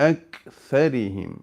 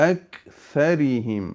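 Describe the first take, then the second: No difference in how they are said.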